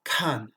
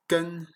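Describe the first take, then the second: First: "Kan" with a strong puff after the K; heavily aspirated "Kan". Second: "kan" with a plain French K, no puff; unaspirated K. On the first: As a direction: push air out on the K of "Kan". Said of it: "mais expiré". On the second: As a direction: say "kan" with an airless K. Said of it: "le G se prononce comme un K". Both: Shown as a demonstration.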